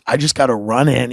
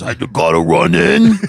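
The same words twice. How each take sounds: First: Said in the usual way. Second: Low, put-on voice of a friend; Brian Half. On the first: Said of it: "He goes". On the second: Friend pulls up to his house, low impression. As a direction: drop way down to mimic the buddy. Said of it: "he talks like this".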